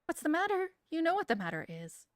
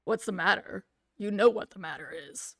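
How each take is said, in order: First: Higher first take of the father's line; first try, pitched up. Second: Louder, menacing father's line; threatening father down the phone. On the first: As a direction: start the line up high. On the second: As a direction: lean on him like an angry dad. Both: Acted. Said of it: "threatening masculine voice".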